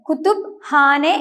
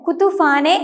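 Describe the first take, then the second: First: The p and h are said as separate sounds. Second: The p and h merge into an f sound. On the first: The speaker calls it right. "രണ്ട് ലെറ്റേഴ്സിനെയും വ്യത്യസ്തമായി ഉച്ചരിച്ചുകൊണ്ട്" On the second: The speaker calls it wrong. "ഇംഗ്ലീഷിലേതുപോലെ കുതുഫാനെ എന്ന് ഉച്ചരിക്കുകയില്ല"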